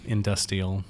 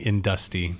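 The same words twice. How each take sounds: First: Said in the usual way. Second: Industy with the middle consonants slurred away. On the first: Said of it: "did you say industrial or industrial". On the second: Shown as a demonstration. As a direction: say Industy, swallowing the r sounds. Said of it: "slurred over some of those consonants".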